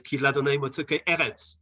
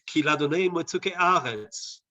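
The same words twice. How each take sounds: First: "eretz" with an EH first vowel; as written, eretz. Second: "aretz" with a long open AH first vowel; misreading with aretz. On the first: Lecturer correcting his misreading from the text, EH in "eretz". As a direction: read it with "eretz" starting EH, not AH. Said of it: "It says". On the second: Lecturer showing how he'd misread the verse, AH in "aretz". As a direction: read it with "aretz" starting AH, not EH. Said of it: "normally I would misread this one". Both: Shown as a demonstration.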